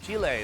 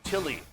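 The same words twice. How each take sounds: First: The name is said the local Chilean way. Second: The name is said the usual English way. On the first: This is how people in the country say it. The speaker calls it right. "they call it Chile" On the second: This is how outsiders usually say it. The speaker calls it wrong. "not Chile, like I did my whole life"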